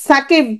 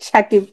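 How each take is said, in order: First: সাকিব said with a sharp initial "s", as "Sakib"; S sound. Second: SAKIB said with an initial "sh" sound, সাকিব as "Shakib"; palatal sh. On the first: Teacher contrasting pronunciations for students, সাকিব with an s. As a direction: open সাকিব on an English S, not sh. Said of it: "সাকিব মানে এস এর মতো". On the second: Teacher showing two spellings sound alike, সাকিব with sh. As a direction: say সাকিব opening on a hushing sh. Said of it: "তালব্য স্বর মতো". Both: Shown as a demonstration.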